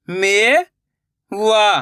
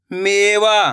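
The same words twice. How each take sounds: First: मेवा drawn out slowly, syllable by syllable; slow syllable split. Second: Said in the usual way. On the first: Shown as a demonstration. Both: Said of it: "मैं किस तरीके से".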